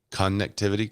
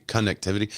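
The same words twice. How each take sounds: First: "Connectivity" opening on a full CON; hard CON. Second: Said in the usual way. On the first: Shown as a demonstration. Streamer repeating the disputed pronunciation, "Connectivity" with hard CON. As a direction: try out "Connectivity" as CON-nectivity. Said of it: "A hard con". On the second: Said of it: "their pronunciation of connectivity".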